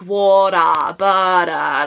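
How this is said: The T sounds are softened, North American style.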